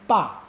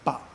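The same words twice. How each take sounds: First: The pitch starts high and falls low. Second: The syllable is short, light and unstressed. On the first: "The first time we say it is a fourth tone" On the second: "The second time is a fifth tone"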